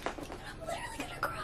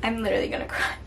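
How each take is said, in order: First: High squeaky voice on the verge of tears; about to cry. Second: Said in the usual way. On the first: Real, not acted. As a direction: let the voice crack up high, near tears.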